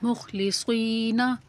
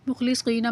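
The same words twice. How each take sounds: First: मुखलिसीना slowly recited with a long "ee" after the Saad; lengthened Saad. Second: Said in the usual way. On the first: Shown as a demonstration. Teacher demonstrating madd to learners, मुखलिसीना with the Saad drawn out. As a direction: stretch the "see" in मुखलिसीना. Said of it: "स्वाद को लंबा करेंगे".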